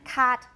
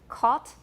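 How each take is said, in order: First: It is said with an American vowel. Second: It is said with a British vowel. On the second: "In British, it's caught"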